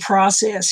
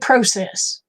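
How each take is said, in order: First: It is said with an American accent. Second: It is said with a Canadian accent. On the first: "we say process here" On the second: "They say process"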